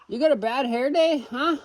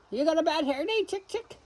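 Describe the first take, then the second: First: Higher sing-song pet voice. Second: Very high, soft cooing question. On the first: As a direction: coo at the fluffy hen. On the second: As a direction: coo sweetly at the hen. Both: Real, not acted. Talking to fluffy chickens.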